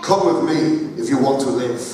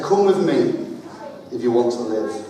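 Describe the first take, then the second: First: Another take at a mild Arnold Schwarzenegger voice; deadpan movie robot line, only lightly voiced; a touch of Terminator menace; second Terminator attempt. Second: A light Arnold Schwarzenegger voice, barely changed; flat, low-key movie-robot delivery; a hint of Terminator deadpan; Terminator impression. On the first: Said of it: "Let me do it again". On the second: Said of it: "my best Terminator impression". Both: Shown as a demonstration.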